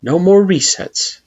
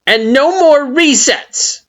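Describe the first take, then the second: First: Solemn echo. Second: Very high, loud, slow demand on more; stern Flowey. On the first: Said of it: "you echo in affirmation". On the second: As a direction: press the last condition hard. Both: A narrator's reading.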